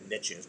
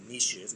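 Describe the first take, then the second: First: It is said the English way, rhyming with riches. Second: It is said the French way, like neesh. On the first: "we don't say the word niches" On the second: "We use the French part of it"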